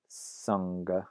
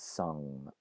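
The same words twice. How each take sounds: First: The ng is followed by a hard g. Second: The word ends in ng with no g. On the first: This is the older pronunciation. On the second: This is the later pronunciation.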